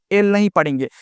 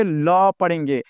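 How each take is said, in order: First: एल as the English letter name, "el"; एल named as in the alphabet. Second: ल as a drawn-out "la"; ल as the sound of letter L; Hindi sound for L. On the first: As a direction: say एल with the vowel first. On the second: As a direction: say ल slowly, consonant first. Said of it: "क्या पढ़ेंगे". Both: Shown as a demonstration.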